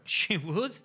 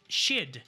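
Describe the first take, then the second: First: Both words are said fully and separately. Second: The two words are joined into one syllable. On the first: "Primero lo separamos" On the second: "Es she'd"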